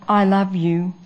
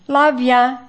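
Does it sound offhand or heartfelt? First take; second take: heartfelt; offhand. First: It sounds sincere and heartfelt. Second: It sounds offhand and careless.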